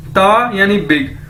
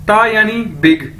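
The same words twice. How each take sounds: The two takes are said the same way.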